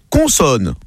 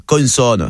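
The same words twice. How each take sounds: First: Plain Parisian "Consonne"; Parisian accent. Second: Put-on "consonne" in Marseille accent, n sounded. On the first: Acted. Parisian contestant calling a letter, Parisian accent. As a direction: say "Consonne" with a Parisian nasal first vowel. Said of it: "le Parisien dit". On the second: Dédé copying his rival, Marseille accent. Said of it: "Dédé de Marseille".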